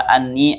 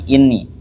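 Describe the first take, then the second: First: The word begins with an 'a' vowel. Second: The word begins with an 'i' vowel. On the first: "kelawan fathae hamzah" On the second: "kelawan den waca kasroh hamzah"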